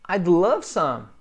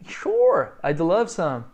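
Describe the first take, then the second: First: Plain. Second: Sure, jumping high and loud, then I'd love some; bright enthusiastic yes to coffee; eager accept. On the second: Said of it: "eu adoraria". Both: Shown as a demonstration.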